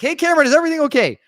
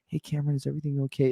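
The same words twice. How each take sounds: First: It is said in a raised, high voice. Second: It is said in a normal, calm voice.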